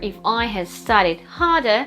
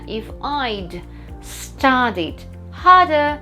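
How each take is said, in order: First: The word 'had' is said in full. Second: The word 'had' is contracted onto 'I'.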